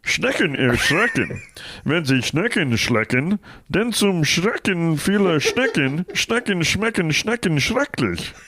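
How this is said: It is said as Kermit the Frog.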